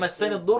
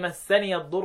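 First: The final ya sound is dropped before the next word. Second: The final ya sound is pronounced with an 'a' vowel. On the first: "حمزة لما يسكنها يحذفها للتخلص من التقاء السكنين" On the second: "بقيت القراء يفتحوها"

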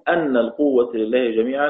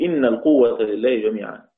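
First: The first word begins with an 'a' vowel. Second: The first word begins with an 'i' vowel. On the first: "والباقون" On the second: "بكسر الهمزة"

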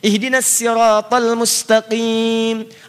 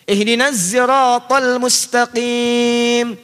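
First: Sirat begins with a light, plain s sound. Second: Sirat begins with a voiced z sound. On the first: "Ada yang pakai sin" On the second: "Ada yang gak bisa sin, gak bisa sod"

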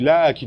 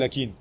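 First: The first vowel is held long. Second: The first vowel is cut short. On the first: The speaker calls it right. "Tu dis lakin" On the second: The speaker calls it wrong. "tu ne dis pas lakin"

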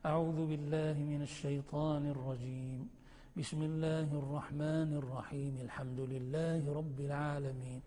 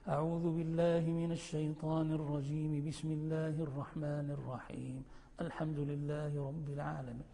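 First: Pause after the first phrase; the rest joined. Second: First two phrases joined; pause after the second. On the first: "وتقف على التعوذ وتصل بسم الله" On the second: "وتصل بسم الله بالتعوذ وتقف"

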